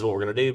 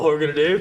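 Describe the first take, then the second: First: It is said flatly with little energy. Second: It is said eagerly with lots of energy. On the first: The speaker feels routine and jaded. The speaker calls it wrong. "not having the enthusiasm and the excitement" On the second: The speaker is happy to be there. The speaker calls it right. "I was so much more excited then"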